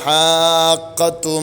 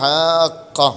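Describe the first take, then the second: First: The word ends with a t sound and vowel. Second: The word ends in a silent h sound. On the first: The reader continues into the next word. "കൂട്ടി ഓതുകയാണെങ്കിലോ" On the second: The reader stops on this word. "നിർത്തുകയാണെങ്കിൽ ഹാഖ ഹാ ഇനെ സുക്കൂൻ ചെയ്യും"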